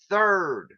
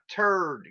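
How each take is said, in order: First: The word begins with a soft th sound. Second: The word begins with a hard t sound. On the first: The speaker calls it right. "Say third" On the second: The speaker calls it wrong. "not turd"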